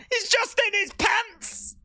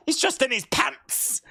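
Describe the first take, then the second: First: Higher, slow disbelief; incredulous. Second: Said in the usual way. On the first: Real, not acted. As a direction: stretch it out in amazement. Repeating in disbelief.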